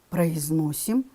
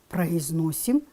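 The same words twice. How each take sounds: The two takes are said the same way.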